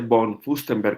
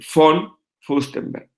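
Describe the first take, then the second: First: Von begins with a Spanish B-like sound. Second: Von begins with an F sound. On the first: This is how it is said in Spanish. The speaker calls it wrong. "realmente no se dice von Fustenberg como se dice en español" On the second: This is how German speakers say it. The speaker calls it right. "ellos dicen von Fustenberg"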